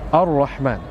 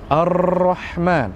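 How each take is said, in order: First: The r has only a slight, short vibration. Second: The r is rolled with many repeated taps. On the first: The speaker calls it right. "tidak mengulang terus-terusan, bergetar terus-terusan, hanya sedikit saja" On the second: The speaker calls it wrong. "tidak boleh kita melampaui batas dalam takrir sehingga mengatakan Ar-Rahman. Ini salah"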